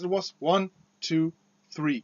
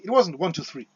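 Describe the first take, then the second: First: The count is at a normal speed. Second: The count is said quickly.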